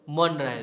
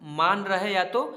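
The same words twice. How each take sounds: First: मन said with a short, clipped a vowel; teacher contrasting a short मन; short a in man. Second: Slow, stretched मान with a long aa vowel; teacher stretching मान slowly; long aa in maan. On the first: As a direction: keep मन short against मान. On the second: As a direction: draw out मान so the aa is clearly long. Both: Shown as a demonstration. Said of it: "यहाँ पर अंग्रेजी same to same क्यों होगा?".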